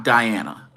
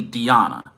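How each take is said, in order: First: "Diana" said die-AN-a, like English "die". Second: "Diana" said dee-AH-na, with ee and ah. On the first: Reviewer showing the mistaken pronunciation, "Diana" as die-AN-a. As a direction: say "Diana" with an eye sound, then a short stressed a. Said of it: "It's actually Diana, not Diana". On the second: Reviewer correcting own pronunciation of the promotion, "Diana" as dee-AH-na. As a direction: say "Diana" with a long ee, then a stressed ah. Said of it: "did catch the right pronunciation". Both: Shown as a demonstration.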